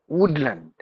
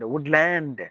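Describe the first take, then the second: First: The last syllable has a short reduced vowel. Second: The last syllable has a long ah vowel. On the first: The speaker calls it right. "you have to put it to a short sound" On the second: The speaker calls it wrong. "instead of saying ah, the long sound"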